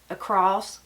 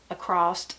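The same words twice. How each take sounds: No difference in how they are said.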